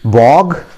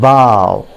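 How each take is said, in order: First: The word ends in a hard g sound. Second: The word ends in an ow vowel sound. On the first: The speaker calls it wrong. "कुछ लोग इसको बॉग भी बोलते हैं" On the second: The speaker calls it right. "It is pronounced as bow"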